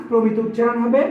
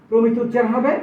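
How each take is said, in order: The two takes are said the same way.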